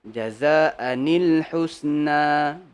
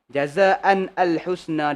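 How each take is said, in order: First: A nun sound joins into the next word. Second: The words stay apart with no joining nun. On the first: The speaker calls it right. "bila sambung je automatik dia datang macam ni" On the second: The speaker calls it wrong.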